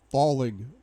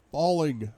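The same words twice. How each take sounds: The two takes are said the same way.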